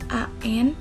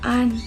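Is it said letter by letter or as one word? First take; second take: letter by letter; one word. First: Each letter is said separately. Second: It is said as one single word. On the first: The speaker calls it right. "yang dibaca A N" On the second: The speaker calls it wrong. "tidak an"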